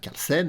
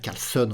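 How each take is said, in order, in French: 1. La dernière syllabe se prononce comme 'sen'. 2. La dernière syllabe se prononce comme 'son'. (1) "au lieu de dire Carlsen" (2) "j'ai tendance à dire Carlson"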